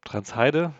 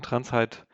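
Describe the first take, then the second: First: "Transheide" with an added final -e. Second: "Transheid" ending on the d; Transheid without final e. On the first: Guest offers the alternative project name, "Transheide" with final e sounded. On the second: Guest offers one way of saying the project name, "Transheid" without final e. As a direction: say "Transheid" in two syllables, no final e. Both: Shown as a demonstration. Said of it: "wie man's aussprechen möchte".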